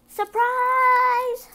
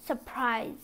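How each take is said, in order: First: Very high, loud squeaky mouse voice; mice crying surprise. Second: Said in the usual way. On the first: Acted. The mice reveal the dress to Cinderella, squeaky and loud. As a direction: squeal it with delight. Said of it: "her friend cried". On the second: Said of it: "Her friends cried".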